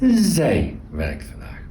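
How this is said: The stress falls on the pronoun zij. The focus is on who does the action. "Second one, emphasis on the subject"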